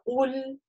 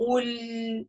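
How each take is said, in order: First: The final sound has a medium length. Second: The final sound is drawn out too long. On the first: The speaker calls it right. "у нас она такая средняя" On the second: The speaker calls it wrong. "это тоже неверно. То есть так чрезмерно долго"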